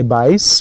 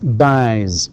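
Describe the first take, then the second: First: The word ends with a voiceless s sound. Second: The word ends with a voiced z sound. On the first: The speaker calls it wrong. "we don't say buys" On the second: The speaker calls it right. "it ends with a vowel and vowels are all voiced so that's buys"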